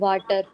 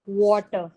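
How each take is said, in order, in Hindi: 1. पहला स्वर खुला, बिना गोल हुआ 'ah' ध्वनि है। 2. पहला स्वर गोल हुआ 'aw' ध्वनि है। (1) "गलत प्रोनाउंसिएशन" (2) "इसको हम कैसे पढ़ेंगे"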